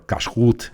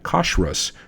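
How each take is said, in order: First: It is said in a strongly modern Israeli style. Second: It is said in an Eastern European Hebrew style. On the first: "if you really want to go full Israeli" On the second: "while I say"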